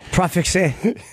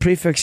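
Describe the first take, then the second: First: It is said with a French-sounding ending. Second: It is said like the English word prefix. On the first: "there's a French pronunciation of it" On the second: "I call it prefix"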